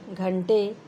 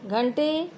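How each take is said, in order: First: घंटे lower with aspirated gh; correct form shown. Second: घंटे pitched up with unbreathed g; wrong form shown. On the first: Teacher contrasting wrong and right, घंटे with gh. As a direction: say घंटे as "ghante", pitched down. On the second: Teacher contrasting wrong and right, घंटे with g. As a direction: say घंटे as "gante", rising. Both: Shown as a demonstration. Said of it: "अशुद्ध, शुद्ध".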